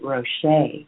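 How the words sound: The name is said with a French pronunciation. This is how it would be said in France. "If we were in France, they would pronounce it Rocher"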